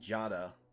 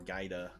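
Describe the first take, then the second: First: The name is said as Jada. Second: The name is said as Gaida. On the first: The speaker calls it right. "Jada is how you're supposed to pronounce it" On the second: The speaker calls it wrong. "I call her Gaida"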